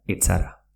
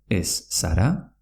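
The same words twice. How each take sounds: First: "etzara" joined with a ts; double Z as TZ. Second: Said in the usual way. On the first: Shown as a demonstration. Teacher repeats the merged form with ts. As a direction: say "etzara" as et-sara. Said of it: "se pronuncia". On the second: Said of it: "se pronuncia etzara".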